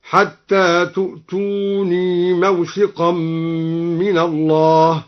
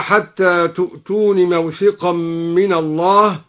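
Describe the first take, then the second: First: Very slow chant, long ii ending "تؤتوني"; ya kept. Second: Said in the usual way. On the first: Shown as a demonstration. Reciter shows al-Duri's reading, "تؤتوني" ending long ii. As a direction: hold the final ya of "تؤتوني". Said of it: "أثبت الياء في تؤتوني وصلا هكذا". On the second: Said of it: "أثبت الياء في تؤتوني وصلا".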